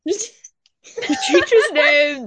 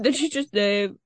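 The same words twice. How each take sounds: First: Drawn out slowly, higher and louder in alarm; suddenly realizing she said the name; alarmed realization. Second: Said in the usual way. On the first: Real, not acted. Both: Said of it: "We'll cut that out".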